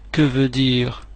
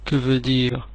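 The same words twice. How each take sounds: The two takes are said the same way.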